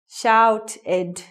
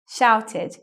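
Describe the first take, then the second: First: The ending is pronounced like a full 'ed'. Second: The ending is pronounced like a light 'id'. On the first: The speaker calls it wrong. "E D word endings sound like this" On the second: The speaker calls it right. "makes an I D sound"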